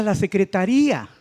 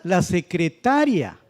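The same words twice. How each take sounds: First: "secretaría" with the stress on the í; higher, punch the -RÍ- in "secretaría"; stress on RÍA. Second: "secretaria" slowly, stressed on -TA-. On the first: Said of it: "malamente estaba acentuada esa vocal". ("secretaría" con acento en la í) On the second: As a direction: say "secretaria" as the person, stress before -ria. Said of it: "Es de una persona". ("secretaria" despacio, con fuerza en ta) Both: Shown as a demonstration.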